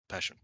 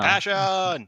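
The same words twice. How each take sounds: First: It is said flatly, without energy. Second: It is said loudly, with energy.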